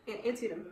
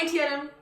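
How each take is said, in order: First: Antietam said softly with An set apart; corrected Antietam. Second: Antietam run together with no separation; mispronounced Antietam. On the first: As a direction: separate An from tietam in Antietam. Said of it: "there's a, there's a separation". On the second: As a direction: slur the syllables of Antietam into one another. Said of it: "there's a separation, okay? Not Antietam". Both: Shown as a demonstration.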